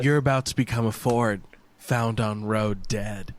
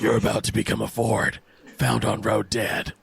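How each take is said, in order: First: It is said in a normal voice. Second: It is said in a gravelly Batman voice.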